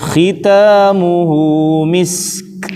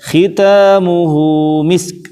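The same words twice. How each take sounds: First: The final s sound is held and flows slowly. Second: The final s sound is cut short and hurried. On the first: The speaker calls it right. "jangan terburu-buru ya, satu harokat dialirkan dulu" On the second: The speaker calls it wrong. "tidak khitamuhu misk, tidak buru-buru"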